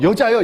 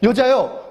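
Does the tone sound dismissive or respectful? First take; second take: dismissive; respectful. First: It is said in a dismissive, scornful tone. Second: It is said in a respectful, honoring tone. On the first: The woman is being looked down on. The speaker calls it wrong. "무시하는 말투가 아니에요" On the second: The woman is being addressed with honor. The speaker calls it right. "높은 존칭어"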